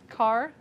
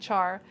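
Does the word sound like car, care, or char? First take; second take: car; char. First: It is said like the word car. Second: It is said starting with a ch sound. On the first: "the correct way" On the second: "which some people say char"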